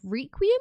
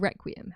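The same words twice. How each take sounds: First: The first syllable sounds like 'ree'. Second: The first syllable sounds like 'reck'.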